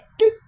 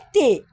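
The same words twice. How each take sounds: First: It is said as a bare consonant sound. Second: It is said as the full letter name. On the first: "é T" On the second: "então o som não é T"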